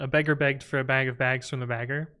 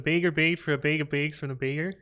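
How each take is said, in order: First: It is spoken in an American accent. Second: It is spoken in a Canadian accent. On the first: "In my accent" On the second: "but in Canadian accent"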